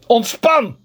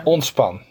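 First: Higher, louder barked order; shouted command. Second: Said in the usual way. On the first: Shown as a demonstration. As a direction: yell relax like a drill sergeant.

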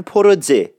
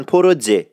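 First: پروژه said with a hard j, as "poroje"; پروژه with j instead of zh. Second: پروژه with a hard j sound, "porodje". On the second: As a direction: say پروژه with j not zh. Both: Shown as a demonstration.

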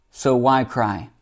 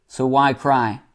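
No difference in how they are said.

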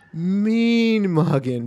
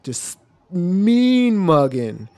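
First: Mean mugging stretched very slowly, rising high; drawn-out emphasis. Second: Plain. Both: Shown as a demonstration. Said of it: "repeats phrase slowly".

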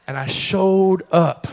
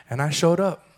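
First: "showed" leaned on hard, the line drawn out slowly; stress on showed, slowed down. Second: Said in the usual way. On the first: Shown as a demonstration. Pastor insisting to the church that he came anyway, slow stress on showed. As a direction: land "And I showed up" slowly with weight on showed.

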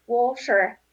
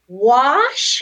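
First: WATER with the t softened toward sh; own pronunciation of water. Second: WASHER stretched loud with a questioning rise; baffled mispronounced echo. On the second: Imitating the puzzled girl in Vegas, baffled echo. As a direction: repeat "Washer" loudly as a puzzled, drawn-out question. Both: Retold or imitated. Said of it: "she kept pronouncing it".

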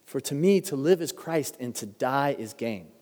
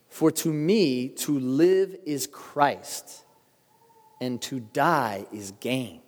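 First: Said in the usual way. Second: "For to me, to live is Christ, and to die is gain" said very slowly with weight on "live" and "die"; slow solemn emphasis. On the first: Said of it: "grandma's quote of the verse". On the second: Shown as a demonstration. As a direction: linger on every phrase, leaning into "live" and "die". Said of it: "preacher dwells on the verse".

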